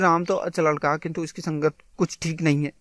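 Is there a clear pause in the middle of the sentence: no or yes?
no. It runs on without a clear mid-sentence pause. The speaker calls it wrong. "ऐसे नहीं कह सकते हम"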